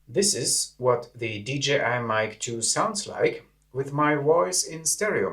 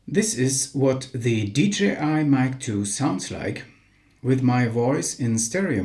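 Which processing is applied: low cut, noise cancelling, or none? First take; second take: noise cancelling; none. First: Low end is cut and background noise suppressed. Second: The sound is unprocessed, with full low end. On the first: "The low cut filter and the noise cancelling function have been activated" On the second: "No low cut filter nor noise cancelling activated"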